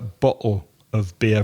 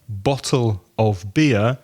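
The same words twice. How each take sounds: First: The T is dropped, made in the throat. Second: The T in bottle is clearly pronounced. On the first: "you would hear bottle of beer, very much from the throat" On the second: "instead of saying"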